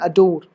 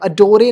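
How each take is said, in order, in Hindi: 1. यह अंतिम 'r' ध्वनि पर समाप्त होता है। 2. इसके अंत में एक अतिरिक्त स्वर ध्वनि है।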